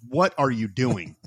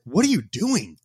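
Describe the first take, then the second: First: Slow "what are you doing", weight on "what"; dad's pointed repeat. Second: "What are you doing" with the pitch raised towards "doing"; dad's baffled question. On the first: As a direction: imitate a baffled dad, spacing out "what are you doing". Dad repeats it more pointedly. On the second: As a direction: imitate a baffled dad, lifting "you doing". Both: Retold or imitated.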